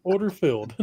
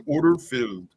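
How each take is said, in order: First: Lightly British order call; clipped British trader voice; British accent. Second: Hint of a British trader; mild British order call; British accent. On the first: Retold or imitated. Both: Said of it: "British guy going".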